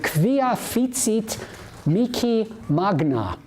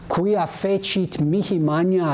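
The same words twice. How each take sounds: First: It is said with hard German-style consonants. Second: It is said with soft Italian-style consonants. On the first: "It's a much harder sound" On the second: "The Italians have a much softer way with consonants"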